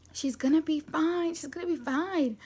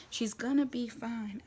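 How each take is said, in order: First: Higher, emphatic repeated assurance; insistent reassurance. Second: Unhurried, even reassurance; mild reassurance. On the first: Mom insisting to the husband all is fine, emphatic. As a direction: imitate a mom insisting, voice pushed up. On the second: Mom calming the panicking husband, mild reassurance. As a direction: lightly imitate a mom calming someone, taking it slowly. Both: Retold or imitated.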